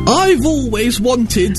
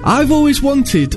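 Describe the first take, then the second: First: It is said in a posh, queen-like accent. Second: It is said in a natural, everyday accent. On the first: It imitates another person's accent. The speaker calls it wrong. "I'm not the queen!" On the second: It is the performer's own voice. The speaker calls it right. "should I just do my voice?"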